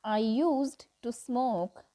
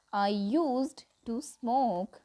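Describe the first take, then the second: No difference in how they are said.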